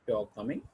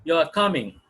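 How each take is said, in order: First: Soft, low, with "coming" rising; rising question. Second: Loud, firm fall on "coming"; falling statement. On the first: Teacher shows a question to students, soft rising tune. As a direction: ask "You are coming" as a question, rising on "coming". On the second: Teacher shows a statement to students, loud falling tune. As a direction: state "You are coming" flatly, falling at the end. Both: Shown as a demonstration. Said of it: "pitch of the word of pattern is used to express the different meanings".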